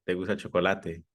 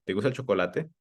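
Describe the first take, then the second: First: "¿Te gusta el chocolate?" with a falling tune from "gusta"; statement question, pitch falls at the end; confirming fall. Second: "¿Te gusta el chocolate?" rising through "gusta"; open question rise. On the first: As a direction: ask "¿Te gusta el chocolate?" assuming yes, ending low. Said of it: "si yo creo que te gusta". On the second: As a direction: ask "¿Te gusta el chocolate?" openly, voice going up. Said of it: "solo es una pregunta en general". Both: Shown as a demonstration.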